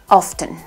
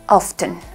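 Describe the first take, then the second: First: The T in the middle is pronounced. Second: The same.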